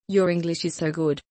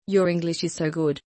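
Both takes have the same delivery.

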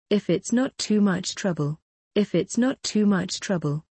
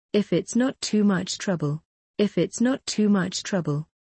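Both takes have the same delivery.

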